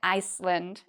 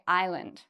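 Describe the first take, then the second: First: An S sound is heard in the middle. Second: No S sound is heard in the middle. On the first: The speaker calls it wrong. "We don't say Iceland" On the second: The speaker calls it right. "The S is silent. we say island"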